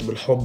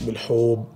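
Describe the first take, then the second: First: The word is said plainly with short vowels. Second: The word is said with a long stretched vowel. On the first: "مش بالحب بتاعتنا لا" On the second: "فيها مد كده كفلو"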